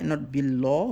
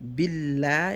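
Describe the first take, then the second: First: The l sound is round and heavy. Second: The l sound is flat and light. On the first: The speaker calls it wrong. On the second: The speaker calls it right. "you either make it flat or round depending on the vowel"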